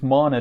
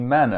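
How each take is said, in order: First: It sounds like the fantasy magic word mana. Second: It sounds like the biblical food word manna. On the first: It names the magical energy of modern fantasy. The speaker calls it wrong. "I was initially calling, uh, pronouncing it as mana trees, um, under the influence of, of course, modern fantasy" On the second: It names the food that fell from heaven. The speaker calls it right. "With two N's, it's more properly manna"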